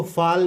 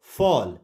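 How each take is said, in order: First: फाल with a long open 'aa'; wrong vowel. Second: फॉल with a rounded 'aw'; correct vowel. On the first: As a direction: say फाल with 'aa', as the mistaken reading. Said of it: "नहीं पढ़ेंगे". (फाल में 'आ' की आवाज़) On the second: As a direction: say फॉल with 'aw', not 'aa'. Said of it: "ए को आ से". (फॉल में 'ऑ' की गोल आवाज़) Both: Shown as a demonstration.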